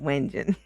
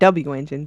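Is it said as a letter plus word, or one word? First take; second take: one word; letter plus word. First: It is said as one blended word. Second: It is said as letter W plus engine. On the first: The speaker calls it right. "but Wenjin" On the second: The speaker calls it wrong. "Not W engine"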